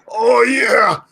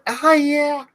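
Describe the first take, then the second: First: It is said in a deep, low voice. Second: It is said in a higher, lighter voice. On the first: The speaker calls it wrong. "that deep voice" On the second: The speaker calls it right. "without that deep voice"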